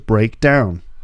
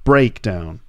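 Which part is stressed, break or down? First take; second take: down; break. First: The stress falls on the second part, down. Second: The stress falls on the first part, break. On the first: It describes the action of the car failing. "when it's a verb, the second part is stressed" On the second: It names the event of the car failing. "when it's a noun, the first syllable is stressed"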